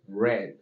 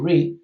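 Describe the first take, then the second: First: The word rhymes with bed, a short vowel. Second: The word rhymes with seed, a long vowel. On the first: It is the past form of the verb. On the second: It is the present form of the verb.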